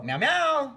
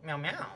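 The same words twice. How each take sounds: First: High-pitched cat hello; bright-pitched greeting meows; meowed phone greeting. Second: Small, soft cat meows; snuggled-up meow. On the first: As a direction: imitate meowing hello to parents. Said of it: "call her parents and go". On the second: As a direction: meow quietly from under a blanket. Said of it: "all snuggled up in a blankie". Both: Retold or imitated.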